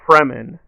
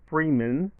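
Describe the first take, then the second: First: The first syllable sounds like 'frem'. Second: The first syllable sounds like 'free'. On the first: The speaker calls it right. "It should be Fremen" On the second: The speaker calls it wrong. "not Freeman. It's not Morgan Freeman"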